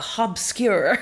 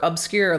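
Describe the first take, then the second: First: The word begins with an H sound. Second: The word begins with a vowel sound.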